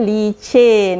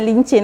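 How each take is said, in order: First: No n sound comes before the c. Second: An extra n sound comes before the c. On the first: This is the standard form used in other states. "kalau uh, Johor, Melaka, uh, sebenarnya licin" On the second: This is how northern dialect speakers say it. "dialek negeri uh, utara"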